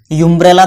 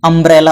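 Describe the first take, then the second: First: यूम्ब्रेला starting with a you sound; wrong pronunciation. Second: अम्ब्रेला starting with a short uh sound; correct pronunciation. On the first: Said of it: "थोड़ी हो रहा है". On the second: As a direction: say अम्ब्रेला opening on a short a, no y glide. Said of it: "अ का sound आ रहा है". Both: Shown as a demonstration.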